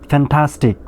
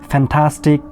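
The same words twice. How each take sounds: The two takes are said the same way.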